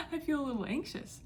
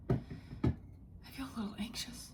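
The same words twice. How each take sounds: First: Said in the usual way. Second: Breathy anxious whisper; barely voiced, nervous. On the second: Real, not acted.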